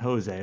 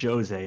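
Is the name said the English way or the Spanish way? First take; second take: Spanish; English. First: The name is said in the Spanish way. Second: The name is said in a non-Spanish, English way. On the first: The speaker calls it wrong. "not Jose" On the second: The speaker calls it right. "it's pronounced Jose"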